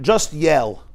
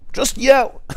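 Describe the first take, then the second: First: Said in the usual way. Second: High, punchy yell; mock yell, pitched up; yelled punchline. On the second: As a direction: fling it out loud. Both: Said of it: "they'll told him like this".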